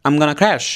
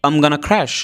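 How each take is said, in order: Both takes have the same delivery.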